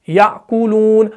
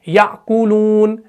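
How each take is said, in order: The two takes are said the same way.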